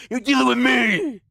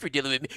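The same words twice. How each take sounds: First: Drawn-out, high hammed-up warning; put-on tough protector, slow and high; mock threat. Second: Said in the usual way. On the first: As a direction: stretch it into a playful menacing warning. Mock threat defending the viewer.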